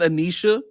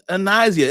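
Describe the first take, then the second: First: The middle consonant is a 'sh' sound. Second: The middle consonant is an 's' sound. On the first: The speaker calls it wrong. "It's not Anisha" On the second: The speaker calls it right. "Her name is Anisia"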